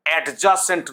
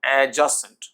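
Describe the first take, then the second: First: অ্যাডজাসেন্ট with the d sounded, ad-ja-sent; loud stopped d before j in অ্যাডজাসেন্ট; wrong pronunciation. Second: অ্যাডজাসেন্ট as a-ja-sent, d silent; loud, clear a-ja-sent for অ্যাডজাসেন্ট; correct pronunciation. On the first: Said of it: "অ্যাডজাসেন্ট নয়". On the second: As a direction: leave the d out of অ্যাডজাসেন্ট. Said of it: "এর উচ্চারণ". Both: Shown as a demonstration.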